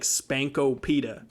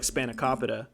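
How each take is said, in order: First: The word is said with four syllables. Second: The word is said with five syllables. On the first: The speaker calls it wrong. "I used to read it as like Spankopita" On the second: The speaker calls it right. "Did I say that right?"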